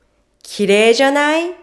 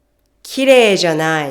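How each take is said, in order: First: 綺麗じゃない quick, climbing high to the end; questioning upswing through 綺麗じゃない; rising tone. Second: 綺麗じゃない? said as a statement, dropping at the end; no rise on 綺麗じゃない?, let it fall. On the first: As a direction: ask for agreement with a rising 綺麗じゃない. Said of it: "Let's listen and compare". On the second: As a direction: negate with a falling 綺麗じゃない?. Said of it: "If you don't raise your tone". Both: Shown as a demonstration.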